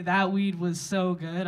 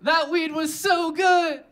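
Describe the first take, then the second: First: Said in the usual way. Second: High, loud, drawn-out call to the crowd; rally the room with a stretched-out shout; call-and-response shout. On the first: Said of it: "when I say". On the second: Pretend. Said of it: "when I say, "That weed was so good".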